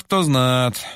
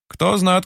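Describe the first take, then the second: First: Trailing sigh, stress on "кто". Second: "Кто знат" raised, stress on "знат"; a wistful old smith sighing "знат". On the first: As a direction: let "кто знат" sink on a sigh. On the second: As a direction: sigh it, lifting "знат". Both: A narrator's reading. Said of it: "вздыхает кузнец".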